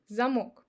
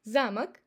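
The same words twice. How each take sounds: First: Замок stressed on МОК; stress on last syllable. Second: Замок stressed on ЗА, second vowel reduced; stress on first syllable. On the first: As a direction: say замок as za-MOK, meaning lock. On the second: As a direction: say Замок as ZA-muk, meaning castle. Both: Shown as a demonstration.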